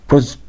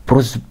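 Both takes have the same delivery.

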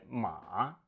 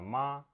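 First: The syllable is said with the third tone. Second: The syllable is said with the first tone. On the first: It means horse. "тон третий" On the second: It means mother. "первый тон это ма"

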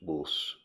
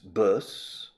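First: It is said in a Midlands or Yorkshire accent. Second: It is said in a British accent. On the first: "the people in the Midlands, in the United Kingdom, and in Yorkshire" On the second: "Un británico"

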